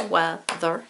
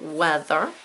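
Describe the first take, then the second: First: "Weather" broken into two separate beats; a small gap inside "Weather", between wea and ther; split into syllables. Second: Said in the usual way. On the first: Shown as a demonstration. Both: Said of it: "Is it its own syllable?".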